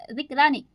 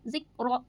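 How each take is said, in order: First: ज़िक्रा with a wrong extra a at the end; wrong added vowel. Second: ज़िक्र closed on r with no extra vowel; ज़िक्र, the right way; correct ending. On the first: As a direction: add a stray a after ज़िक्र. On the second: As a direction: stop cleanly on the r of ज़िक्र. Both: Shown as a demonstration.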